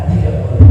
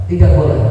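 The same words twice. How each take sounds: The two takes are said the same way.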